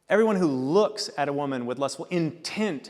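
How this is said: The word looks carries strong emphasis.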